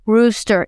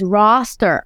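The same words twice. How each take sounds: First: ROOSTER with a long oo vowel, slowly. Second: ROSTER with an open ah vowel. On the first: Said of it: "it's not rooster". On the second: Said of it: "That's not how you say it". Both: Retold or imitated.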